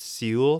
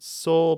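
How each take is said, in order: First: Seoul said as "SEE-ool"; two syllables in Seoul, "see-ool"; mock mispronunciation. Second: Seoul said as one syllable, "sole"; usual pronunciation. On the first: Jokingly correcting listeners, Seoul mispronounced as "see-ool". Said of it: "It is pronounced Seoul". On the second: Shown as a demonstration. Citing what some people say, Seoul pronounced "sole". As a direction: say Seoul like the word "soul". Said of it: "some people pronounce it Seoul".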